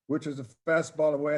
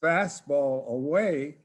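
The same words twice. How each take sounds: First: Said in the usual way. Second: Slow, drawn-out mock yell toward the field; calling out the pitch in a mild mock yell; retold yell. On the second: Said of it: "and I yelled out".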